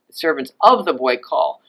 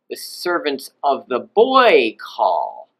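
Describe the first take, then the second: First: Said in the usual way. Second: Put-on "boy" swooped up high and stretched; slow line, big high stress on "boy"; high pitch on genitive. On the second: Shown as a demonstration. Teacher translating for students, "boy" lifted high as genitive. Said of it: "somersault up into this high pitch".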